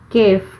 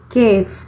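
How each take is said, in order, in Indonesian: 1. Kata "kaifa" diucapkan dalam bentuk percakapan yang pendek. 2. Kata "kaifa" diucapkan dalam bentuk percakapan yang pendek.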